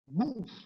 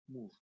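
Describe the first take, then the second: First: It is said with force and energy. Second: It is said quietly, with little force.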